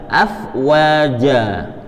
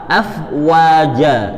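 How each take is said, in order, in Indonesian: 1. Bunyi w diucapkan dengan bibir membulat dan maju ke depan. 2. Bunyi w diucapkan dengan bibir membulat dan maju ke depan.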